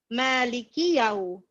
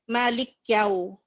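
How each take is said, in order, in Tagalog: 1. Sinusundan ng maikling patinig na i ang k. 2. Sinusundan agad ng y ang k. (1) "Yung tamang pagbasa is maliki" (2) "nagiging sakin ang kaf"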